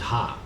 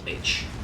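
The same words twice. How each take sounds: First: The letter is named in the speaker's own language. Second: The letter is named the English way. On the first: This is what the speaker's people call it. "We call it H" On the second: This is what English speakers call it. "they call it H"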